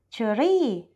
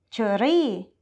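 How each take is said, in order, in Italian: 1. Viene pronunciata con un accento thailandese. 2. Viene pronunciata con un accento thailandese.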